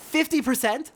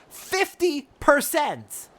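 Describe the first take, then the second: First: Fifty percent? asked high and loud, rising in disbelief; incredulous. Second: Fifty percent! slow, high and loud, falling hard; outraged. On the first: Frey repeats the merchant's demand, rising disbelief. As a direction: question the number as if you misheard. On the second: Frey throws the merchant's demand back at him, slow outrage. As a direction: spit each word out in fury. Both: Acted.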